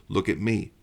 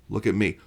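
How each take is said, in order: The two takes are said the same way.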